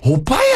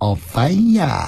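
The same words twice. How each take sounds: First: It is said in an annoyed tone. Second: It is said in a cute, coaxing tone.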